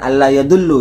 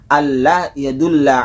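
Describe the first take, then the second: First: The verb ends in a short u vowel. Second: The verb ends in a short a vowel. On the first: The speaker calls it wrong. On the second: The speaker calls it right. "yang betul harus dibaca"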